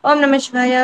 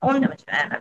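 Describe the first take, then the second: First: It is said loudly and clearly audible. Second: It is said softly, barely audible. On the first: People nearby can also hear it. "గట్టిగా పక్క వాళ్ళకి కూడా వినపడేలాగా" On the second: Only the chanter can hear it. "చిన్నగా మనకు మాత్రమే వినపడేలాగా"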